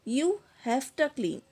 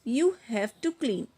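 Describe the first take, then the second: Both takes have the same delivery.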